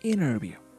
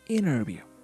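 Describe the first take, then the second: First: The T is dropped and the N is lengthened. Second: The T is dropped and the N is lengthened.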